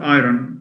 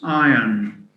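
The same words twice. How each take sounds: First: The R sound is pronounced in the word. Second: The R sound is silent in the word. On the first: The speaker calls it wrong. "So it's not iron" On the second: The speaker calls it right. "it's iron"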